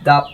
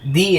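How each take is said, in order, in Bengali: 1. স্বরধ্বনিটি একটি ছোট, নিরপেক্ষ 'uh'। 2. স্বরধ্বনিটি একটি দীর্ঘ 'ee'। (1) "কনসোনেন্ট সাউন্ড হয় তাহলে দা দা হবে" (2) "ভাওয়েল হয় তাহলে দি হবে"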